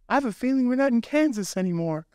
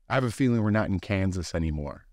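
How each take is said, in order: First: It is said in a high, squeaky cartoon voice. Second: It is said in a normal speaking voice.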